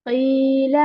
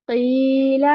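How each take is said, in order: No difference in how they are said.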